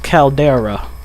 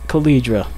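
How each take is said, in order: First: The name is said as Caldera. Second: The name is said as Calidra. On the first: The speaker calls it right. "The real way to say it is" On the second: The speaker calls it wrong. "I was saying it"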